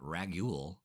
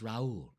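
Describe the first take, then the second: First: A hard g sound is heard mid-name. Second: No g sound is heard mid-name. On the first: The speaker calls it wrong. "it's not Ragul" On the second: The speaker calls it right. "It's Raul"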